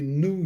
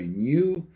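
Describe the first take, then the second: First: It is said the New York way. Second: It is said the Irish way. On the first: "they say New York" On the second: "So we say new"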